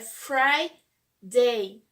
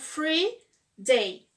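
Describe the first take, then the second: First: The first syllable sounds like 'fry'. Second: The first syllable sounds like 'free'. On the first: It names the sixth day of the week. The speaker calls it right. "E é Friday" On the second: It means a day off. The speaker calls it wrong. "falam free day"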